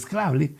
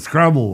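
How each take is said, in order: First: The word is said with a Spanish pronunciation. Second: The word is said with an English pronunciation. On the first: "en español el Scrabble" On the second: "en inglés se debe pronunciar como Scrabble"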